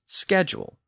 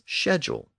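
First: The word is pronounced the American way. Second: The word is pronounced the British way. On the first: "American English uses schedule" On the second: "English dialects in Britain and much of the Commonwealth have tended to pronounce the word as"

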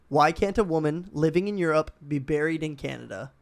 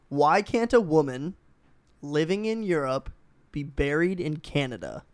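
First: The question is read at a normal pace. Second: The question is read at a slow pace.

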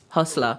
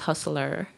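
First: The word ends in a plain 'la' sound. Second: The word ends in an 'ler' sound. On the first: The speaker calls it right. "more like H-U-S-apostrophe-L-A" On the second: The speaker calls it wrong. "Nobody says Hustler"

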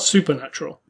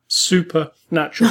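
First: It is said as one smooth single word. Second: It is split into two words, super and natural. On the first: She seemed paranormal or otherworldly. The speaker calls it wrong. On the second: She seemed very natural. The speaker calls it right.

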